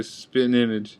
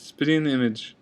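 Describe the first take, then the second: First: "spitting image" as "spit'n image"; country pronunciation. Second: Said in the usual way. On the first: Shown as a demonstration. Vlogger showing country speech, dropped G pronunciation. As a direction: drop the G in "spitting", with a hard T. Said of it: "in the country, they say". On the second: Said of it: "It's spitting image".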